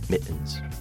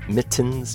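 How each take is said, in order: First: The middle t is dropped, Cockney style. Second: The middle t sound is clearly pronounced. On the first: The speaker calls it right. "but mittens" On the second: The speaker calls it wrong. "Not mittens"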